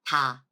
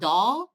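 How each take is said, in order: First: It begins with a soft, light T-like sound. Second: It begins with a voiced English-like D sound. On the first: The speaker calls it right. "it's ta, ta. So softer T sound" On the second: The speaker calls it wrong. "It's not da"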